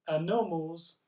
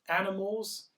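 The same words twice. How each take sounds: First: The stress is on the second syllable. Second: The stress is on the first syllable. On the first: "If it's on the second syllable" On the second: "if it's on the first syllable"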